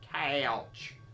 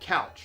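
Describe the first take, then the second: First: The vowel is stretched with an extra aw sound. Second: The vowel is a plain, short standard sound. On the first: "they throw in this extra A W" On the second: "it's not couch"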